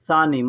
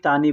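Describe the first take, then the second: First: The word begins with an s-like sound. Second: The word begins with a t sound. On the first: This is the proper form of the word. "लेकिन होता है सानी" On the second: This is how people say it in everyday speech. "बोलने के लिए लोग तानी तानी बोलते हैं"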